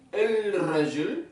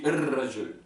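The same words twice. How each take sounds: First: El Rajul said slowly with the L; El Rajul, L kept; El Rajul, L spelled out. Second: El Rajul with the L merged into the R; L assimilated. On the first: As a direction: stretch out El Rajul letter by letter. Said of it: "Parce que regardez". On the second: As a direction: glide the L into the R in El Rajul. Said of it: "on dit". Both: Shown as a demonstration.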